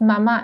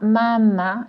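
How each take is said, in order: First: The stress is on the last syllable. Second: The stress is on the first syllable. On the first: It means mother. The speaker calls it right. "notice it's mama" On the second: It means she nurses the baby. The speaker calls it wrong. "it's not mama. It's not Italian"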